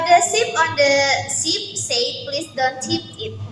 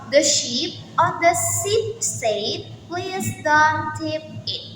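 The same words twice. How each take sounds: First: It is said fast. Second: It is said at normal speed.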